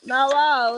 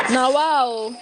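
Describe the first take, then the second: First: Louder sarcastic wow; a second hammed-up wow; mock wow after laughing. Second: Louder, higher mocking wow; a hammed-up wow. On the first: Still mocking the pot seller, sarcastic wow. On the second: Mocking the pot seller, loud sarcastic wow.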